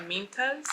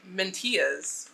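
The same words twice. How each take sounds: First: Said in the usual way. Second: Spanish accent. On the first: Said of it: "I don't know why I gave it". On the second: Shown as a demonstration. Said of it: "like, a Spanish accent".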